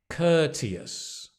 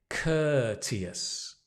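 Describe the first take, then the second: Both takes have the same delivery.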